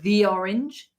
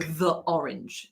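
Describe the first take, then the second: First: 'The' has a long 'thee' vowel. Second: 'The' has a short weak 'thuh' vowel. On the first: The speaker calls it right. "If it comes before a vowel, you need to say the" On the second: The speaker calls it wrong. "it's very hard to go the orange. That's really weird"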